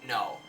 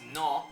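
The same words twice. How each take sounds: First: The word is said with an English vowel. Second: The word is said with a Spanish vowel. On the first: "English speakers ... pronouncing ... as no" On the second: "the word for no, which is no"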